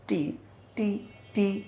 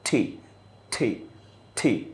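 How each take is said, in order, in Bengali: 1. T-তে শুধু দুর্বল বাতাসের ফুৎকার থাকে। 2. T-তে জোরালো বাতাসের ফুৎকার থাকে। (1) "নড়ছে না কিন্তু ততটা" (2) "যদি আমি প্রনাউন্স কারেক্টলি করতে চাই"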